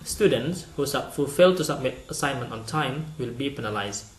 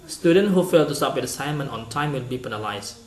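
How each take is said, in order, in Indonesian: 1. Kalimat ini dibaca dengan jeda di sekitar klausa. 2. Kalimat ini dibaca dengan lancar, tanpa jeda di dalamnya. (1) "Yang kedua" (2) "Saya yang A misalnya akan membaca dengan"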